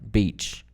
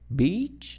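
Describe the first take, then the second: First: The pitch stays level at the end of the word. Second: The pitch rises at the end of the word. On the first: The speaker calls it right. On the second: The speaker calls it wrong.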